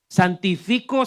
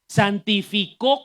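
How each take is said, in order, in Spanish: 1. El acento de santifico está en la penúltima sílaba. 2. El acento de santifico está en la última sílaba. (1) "Santifico sin acento es que todavía está en proceso" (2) "Santificó con acento, ya está terminado"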